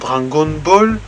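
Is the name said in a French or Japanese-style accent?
French. It is said in a plain French accent. "Au lieu de dire Dragon Ball"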